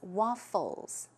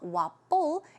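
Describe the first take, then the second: First: The middle consonant is an F sound. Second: The middle consonant is a P sound. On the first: The speaker calls it right. "it's an F" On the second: The speaker calls it wrong. "we tend to pronounce it with a P"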